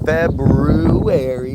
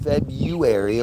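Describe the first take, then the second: First: The word is said in a careful, full pronunciation. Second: The word is said in the common everyday pronunciation. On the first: The speaker calls it right. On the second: The speaker calls it wrong.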